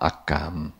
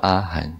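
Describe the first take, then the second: First: It is said with Taiwanese pronunciation, ending in gam. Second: It is said with Mandarin pronunciation, ending in han. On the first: The sound stays close to the original Sanskrit. The speaker calls it right. "但是用台湾话阿甘" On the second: The sound drifts from the original Sanskrit. The speaker calls it wrong. "因为我们现在用国语发音会音会跑掉"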